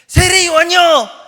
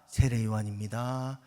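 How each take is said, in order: First: It is said in a lively, vivid way. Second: It is said in a flat, dull way.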